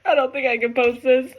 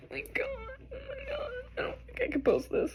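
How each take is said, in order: First: Teary voice; real tears, can't go on; choked-up admission; crying. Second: Soft, broken crying; real sobs trailing off; weeping, almost inaudible; sobbing. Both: Real, not acted. Crying over the reading.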